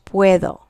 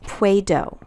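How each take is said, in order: First: The middle d sounds soft, like th. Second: The middle d sounds hard, like English d. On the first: The speaker calls it right. "this D here is more pronounced like a T H" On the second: The speaker calls it wrong. "not puedo"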